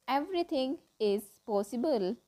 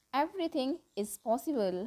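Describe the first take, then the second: No difference in how they are said.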